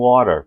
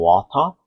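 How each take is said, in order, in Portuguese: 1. É pronunciado com sotaque americano. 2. É pronunciado com sotaque britânico. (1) "e o americano water" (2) "um britânico falando water"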